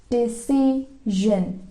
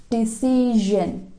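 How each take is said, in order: No difference in how they are said.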